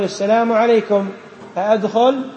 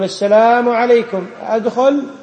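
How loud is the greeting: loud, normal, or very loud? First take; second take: normal; loud. First: It is said at normal volume. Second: It is said in a raised voice. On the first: This is the first request to enter. "الأول يقول" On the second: The people inside did not hear the first request. "ما سمعوك، ارفع صوتك، قل"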